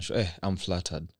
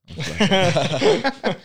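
First: Said in the usual way. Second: High, slow, laughing it out. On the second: Real, not acted. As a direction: giggle through the words. Host repeats, laughing.

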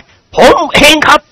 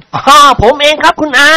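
First: Slow, high admission after a gulp; nervous confession. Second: Bold confession. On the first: Chao Khun nervously owns up to Khunying. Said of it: "กลืนน้ำลายเอื้อก". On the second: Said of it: "รับสารภาพอย่างกล้าหาญ". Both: Acted.

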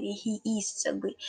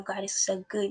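First: "is" leaned on slowly in a soft voice; soft, slow praise with weight on "is"; stress on IS. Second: Said in the usual way. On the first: Real, not acted. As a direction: quietly insist on the word "is".

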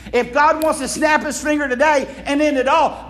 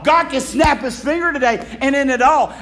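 First: Preaching shout. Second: Said in the usual way. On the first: Real, not acted. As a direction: preach it out with force.

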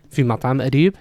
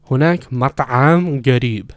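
First: Said in the usual way. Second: Loud, laboured "مطعم" with the ayn squeezed and stretched; over-enunciated ayn. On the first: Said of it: "it's mat'am". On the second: Retold or imitated. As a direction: imitate a student overdoing the ayn in "مطعم". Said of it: "he was over-enunciating".

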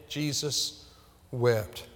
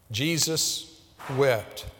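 First: Jesus softer, then a pause before a falling wept; hushed repeat. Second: Drawn out with a pause before wept; slow solemn stress. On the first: Preacher repeating the verse to his church, softer and hushed. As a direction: drop the voice and let wept fall. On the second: Preacher to congregation, Jesus wept slow and weighty. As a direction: let Jesus wept land slowly and heavily. Preacher quotes the scripture's answer. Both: Shown as a demonstration.

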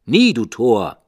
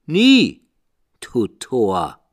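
First: Loud, higher raven cry; loud harsh raven reply; raven's retort. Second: Very high, loud raven shriek; high piercing raven cry; raven's shriek. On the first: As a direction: snap back as the raven. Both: A narrator's reading. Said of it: "Sprach der Rabe".

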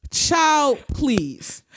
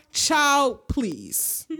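First: Exasperated dismissal. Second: Gam's dismissal. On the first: Real, not acted. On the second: Retold or imitated. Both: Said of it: "As in the words of Gam".

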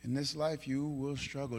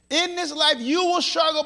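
First: Low, very soft restatement; quiet, sober pulpit voice; hushed. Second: High, forceful declaration; raised, insistent pulpit voice; emphatic preaching. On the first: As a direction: bring it right down, almost intimate. Same words repeated in hushed voice. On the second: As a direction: proclaim it as a firm warning. Emphatic take, later repeated softly. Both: Real, not acted.

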